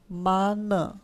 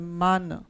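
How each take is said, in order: First: The final sound is fully pronounced. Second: The final sound is light and barely pronounced.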